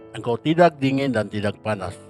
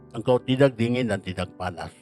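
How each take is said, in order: No difference in how they are said.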